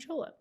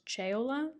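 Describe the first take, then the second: First: The name is said with one syllable fewer. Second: The name keeps its full set of syllables. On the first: This is the family's shortened form. "dropped a syllable" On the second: This is the original Italian form. "In Italian, it's Ceola"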